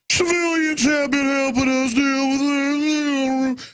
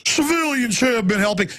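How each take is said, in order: First: High, slow, sing-song mock of a police chief. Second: A higher mock of the mayor's sing-song. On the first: Host mocking police chiefs on the news, high slow mock voice. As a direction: mimic that smug official news voice, drawn out. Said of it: "you know, that voice". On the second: Host mocking the Austin mayor, higher mock voice. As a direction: lightly mimic the mayor's smug tone. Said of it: "our mayor here in Austin all the time going".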